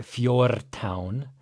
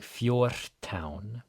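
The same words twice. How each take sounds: First: Fjortán with a hard voiced r; the wrong fjortán, heavy r. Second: Fjortán with the r devoiced before t, slow; the right fjortán. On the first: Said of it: "This isn't like a really hard fjortán". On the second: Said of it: "it should sound like fjortán". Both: Shown as a demonstration.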